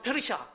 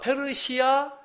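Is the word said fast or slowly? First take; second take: fast; slowly. First: The word is said quickly. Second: The word is said slowly. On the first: "조금 빨리 하면" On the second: "천천히 하면은"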